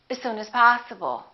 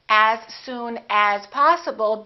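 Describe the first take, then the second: First: The vowel in 'as' is reduced to uh. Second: The vowel in 'as' is full and clear. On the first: The speaker calls it right. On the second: The speaker calls it wrong.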